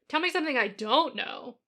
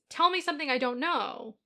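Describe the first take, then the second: First: It sounds sarcastic, with an exaggerated "don't". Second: It sounds like a sincere, genuine question.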